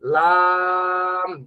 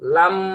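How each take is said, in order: First: The vowel is drawn out and long. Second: The vowel is short and not drawn out. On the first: The speaker calls it right. "লা টান হবে" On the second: The speaker calls it wrong. "এক ভাইকে শুনলাম তিনি বলছেন লাম, না, এভাবে বলা যাবে না"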